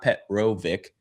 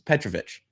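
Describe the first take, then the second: First: The name ends with a hard 'k' sound. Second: The name ends with a soft 'ch' sound. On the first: The speaker calls it wrong. "It's not Petrovic" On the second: The speaker calls it right. "it's Petrovich"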